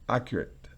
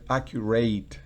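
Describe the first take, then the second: First: The stress is on the first syllable. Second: The stress is on the last syllable. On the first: The speaker calls it right. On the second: The speaker calls it wrong. "Fíjese que no es"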